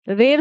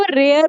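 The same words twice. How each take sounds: First: रेयर flattened to one plain 'rer' with no glide; wrong pronunciation. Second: रेयर with an 'ay-uh' glide before the r; correct pronunciation. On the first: Teacher shows learners the wrong form, wrong pronunciation. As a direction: say रेयर as 'rayr', leaving out the 'uh'. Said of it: "रेयर तो नहीं बोल रही". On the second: Teacher shows learners the right form, correct pronunciation. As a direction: let रेयर slide from 'ray' into 'uh'. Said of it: "मैं इसको रेयर बोल रही". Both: Shown as a demonstration.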